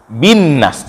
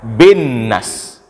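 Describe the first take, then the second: First: The first vowel is a clear 'i' sound. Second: The first vowel is shifted toward an 'e' sound. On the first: The speaker calls it right. "baca bi dengan jelas" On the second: The speaker calls it wrong. "jangan dibaca"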